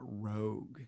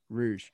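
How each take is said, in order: First: The word ends with a hard 'g' sound. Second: The word ends with a soft 'zh' sound. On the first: The speaker calls it wrong. "it's not Rogue" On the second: The speaker calls it right.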